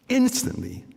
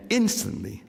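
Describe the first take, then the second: No difference in how they are said.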